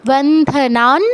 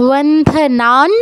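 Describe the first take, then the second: Both takes have the same delivery.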